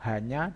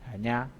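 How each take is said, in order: No difference in how they are said.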